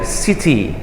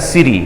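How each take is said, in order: First: The middle consonant is a clear t sound. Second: The middle consonant sounds like a soft d. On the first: "Bedakan ya orang British ya"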